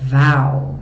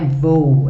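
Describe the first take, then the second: First: The vowel is said wide open. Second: The vowel is said closed, not wide open. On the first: The speaker calls it right. "é val, bem aberta" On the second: The speaker calls it wrong. "não é vou"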